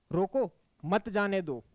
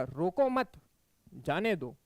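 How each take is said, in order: First: रोको on its own, brief break, then मत जाने दो together; pause after रोको. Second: रोको मत together, clear break, then जाने दो; pause after मत. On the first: Teacher showing students where the comma falls, pausing after रोको. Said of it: "यहाँ कॉमा लग गया". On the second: Teacher moving the comma for students, pausing after मत. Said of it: "फिर कहाँ लगाए हैं अपन". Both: Shown as a demonstration.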